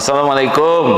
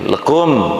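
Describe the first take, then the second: First: The greeting is said fully and clearly. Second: The greeting is clipped to its last syllables.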